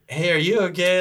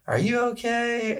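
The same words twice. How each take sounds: First: Higher-pitched concerned question; imitated girlfriend. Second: Put-on little girl. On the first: Girlfriend phoning to ask if he's okay, lightly imitated higher voice. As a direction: lightly imitate a woman checking in. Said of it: "call from my girlfriend at the time". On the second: Little girl asking through the door if he's okay, high imitated child voice. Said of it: "this little girl".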